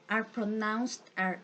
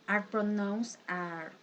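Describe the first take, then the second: Both takes have the same delivery.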